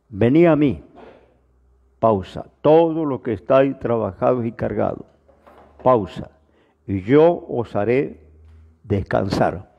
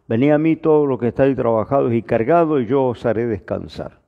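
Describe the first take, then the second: First: It is read with pauses between the phrases. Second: It is read straight through without pauses.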